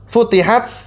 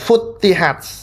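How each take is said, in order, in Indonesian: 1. T pertama pendek dan tunggal. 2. T pertama ditahan dan digandakan. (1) "seperti biasa tanpa tasydid" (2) "tanya ini ditasdid"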